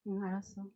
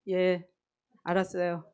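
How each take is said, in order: First: The reply sounds gentle and soft. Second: The reply sounds curt and not soft.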